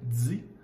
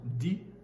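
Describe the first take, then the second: First: The d has a hissing sound added. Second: The d is plain, with no hiss. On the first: This is the Quebec French sound. "devient di" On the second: This is the international French sound. "le son di"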